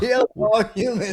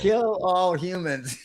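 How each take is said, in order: First: Laughing robot voice. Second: Slow, high robot monotone. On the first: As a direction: crack up mid robot line. Repeated laughing, louder. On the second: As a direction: drone it like a menacing robot. Robot slogan joke. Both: Pretend.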